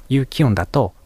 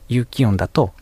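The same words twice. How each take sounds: No difference in how they are said.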